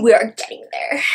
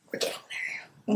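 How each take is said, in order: First: Said in the usual way. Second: Tiny teasing whisper. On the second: Real, not acted. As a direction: breathe it to yourself as a tease. Teasing aside, then repeated aloud.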